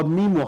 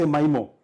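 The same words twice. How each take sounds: First: Mimo with an ee sound, as "MEE-mo". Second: Mimo with a long I, as "MY-mo". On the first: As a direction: say the first syllable of mimo like "me". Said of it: "How do you say that?". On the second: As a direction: say the first syllable of mimo like "my". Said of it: "I say mimo". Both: Shown as a demonstration.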